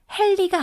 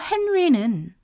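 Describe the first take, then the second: First: The n becomes an l sound. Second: The name keeps a clear n before the r. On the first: The speaker calls it wrong. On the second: The speaker calls it right.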